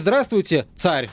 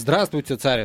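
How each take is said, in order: First: Царь is said like a speaker naming himself. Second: Царь is said like calling to another person. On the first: The speaker is calling himself the tsar. The speaker calls it wrong. "мол, я" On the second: The speaker is greeting someone else as the tsar. The speaker calls it right. "обращение"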